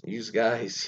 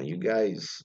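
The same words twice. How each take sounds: First: "you guys" with a Z sound ending "you", as "yooz guys"; Philadelphia added S. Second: Said in the usual way. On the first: Shown as a demonstration. Host showing Philadelphia's added S, "you guys" said as "yooz guys". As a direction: put an extra S on "you" in "you guys". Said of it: "always add S's for things don't need S's". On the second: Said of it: "the Philadelphia always add S's".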